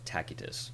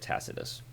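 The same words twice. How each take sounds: First: The name is said the classical Latin way. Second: The name is said the common everyday way. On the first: "that's the classical Latin pronunciation" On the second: "I hear a lot of people also say"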